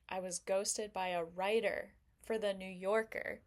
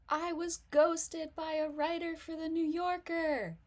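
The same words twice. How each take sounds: First: It is said in a quietly boastful tone. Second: It is said in a sloppy, overexcited, tipsy tone. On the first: Being ghosted is a hidden brag. "kind of sounds like I'm humble bragging" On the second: The speaker is oversharing while drunk. "girl, you spilled your drink everywhere"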